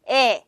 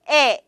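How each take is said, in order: No difference in how they are said.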